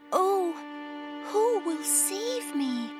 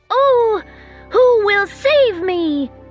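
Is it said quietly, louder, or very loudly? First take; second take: quietly; very loudly. First: It is said in a tiny, quiet voice. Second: It is said as loudly as possible.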